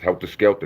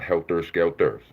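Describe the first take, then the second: First: Both words end in an 'ah' sound. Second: Both words end in an 'er' sound. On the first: The speaker calls it right. "A's and H's" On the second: The speaker calls it wrong. "no E's and R's"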